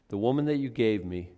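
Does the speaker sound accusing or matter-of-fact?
matter-of-fact. It is said in a plain, matter-of-fact tone. The speaker simply confesses what happened. "I heard Ken Graves say it this way"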